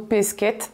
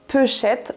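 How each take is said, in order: First: The word has an 'sk' sound, standard style. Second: The word has a 'sh' sound, Groix style. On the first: "en qualité standard on dira plutôt" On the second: "à Groix"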